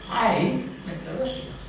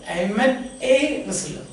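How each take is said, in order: First: The word 'a' is said reduced and unstressed. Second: The word 'a' is said fully and stressed. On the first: "You don't want to stress that part" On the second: "If you want to stress that part"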